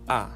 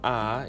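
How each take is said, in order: First: The pitch falls sharply from high to low. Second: The pitch rises from middle to high. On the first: "ambayo inashuka"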